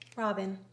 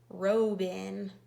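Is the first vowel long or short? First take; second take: short; long. First: The first vowel is a short O sound. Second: The first vowel is a long O sound. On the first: The speaker calls it right. "This O is making its short O sound" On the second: The speaker calls it wrong. "But this one would be pronounced robin. And robin is not the right way to say the word"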